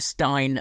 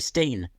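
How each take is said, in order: First: The vowel sounds like 'eye'. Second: The vowel sounds like 'ee'. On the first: The speaker calls it right. "when you think of a, a stein of beer" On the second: The speaker calls it wrong. "you don't say Steen"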